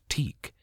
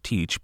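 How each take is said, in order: First: The name ends with a k sound. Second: The name ends with a ch sound. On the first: "traditionally the CH sound often had a K sound, so it might be pronounced Teek" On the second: "instead of Teach"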